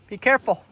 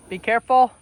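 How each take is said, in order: Both takes have the same delivery.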